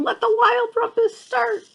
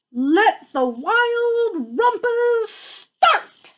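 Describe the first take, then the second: First: Excited cry. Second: Much higher, slow drawn-out cry; excited cry. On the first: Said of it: "And he's saying". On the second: Max crying out to the wild things to start the party. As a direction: sing it out like a thrilled boy king. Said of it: "cried Max". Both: Acted.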